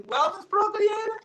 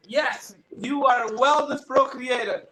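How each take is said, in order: First: High rising disbelief on "Wellness Pro Creator"; acted incredulous question. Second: "Wellness Pro Creator" as a statement, falling at the end; acted firm confirmation. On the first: Doubts the name offered to him. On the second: Other man's answer confirming the name.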